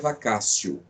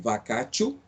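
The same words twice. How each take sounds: First: The middle consonant is an s-like sound. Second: The middle consonant is a hard t sound. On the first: "mas a pronúncia é vacatio" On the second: "Se escreve vacatio"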